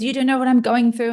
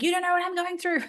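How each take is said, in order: First: Daughter's retort. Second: Much higher, softer, fast mocking echo; mocking mimic. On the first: Retold or imitated. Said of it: "and then she says". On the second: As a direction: parrot her words back in a whiny high voice. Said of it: "And I'm like".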